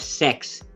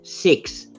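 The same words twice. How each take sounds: First: Six sounds like sex, in a New Zealand accent. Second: Six is said in an Australian accent. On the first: "The Kiwis go ... So the six turns to sex" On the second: "we go"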